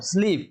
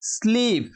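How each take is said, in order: First: Said in the usual way. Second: স্লিপ stretched long and higher; teacher's drawn-out, raised স্লিপ; drawn-out pronunciation. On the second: Shown as a demonstration. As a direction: sound out স্লিপ slowly, holding the long ee. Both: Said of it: "উচ্চারণ হবে কি".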